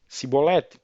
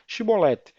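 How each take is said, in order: First: The word begins with an s sound. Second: The word begins with a sh sound. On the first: The speaker belongs to another region. The speaker calls it wrong. "não conseguia pronunciar bem" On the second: The speaker belongs to one region. The speaker calls it right. "dizem pois Shibolete"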